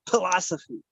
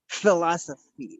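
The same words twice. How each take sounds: First: It starts with a breathy P sound. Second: It starts with an F sound. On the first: "the P H is just that a P sound, but you aspirate it? Puh, puh" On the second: "with an F sound"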